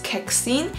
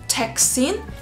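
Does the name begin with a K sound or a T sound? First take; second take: K sound; T sound. First: The name begins with a K sound. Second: The name begins with a T sound. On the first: The speaker calls it right. "it's with a K" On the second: The speaker calls it wrong. "like with a T"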